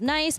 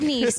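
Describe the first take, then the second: First: It rhymes with the English word 'rice'. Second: It rhymes with the English word 'piece'. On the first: The speaker calls it wrong. "I used to pronounce it as nice" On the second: The speaker calls it right. "it is pronounced Nice"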